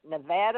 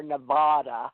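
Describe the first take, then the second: First: "Nevada" with the middle a as in "cat"; short-a pronunciation. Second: "Nevada" with the middle a as in "father"; broad-a pronunciation. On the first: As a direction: say "Nevada" as neh-VAD-uh. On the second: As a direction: say "Nevada" as neh-VAH-duh. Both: Shown as a demonstration. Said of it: "How do you say it".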